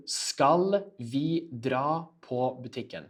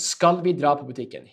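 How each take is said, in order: First: Slow, word-by-word delivery; slower. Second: Said in the usual way. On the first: Shown as a demonstration. Teacher repeats the dialogue question for learners, slower. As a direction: say it slowly, each word separated for learners. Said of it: "I'll say it f-, uh, slower to you". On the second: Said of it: "I'll say it f-, uh, slower".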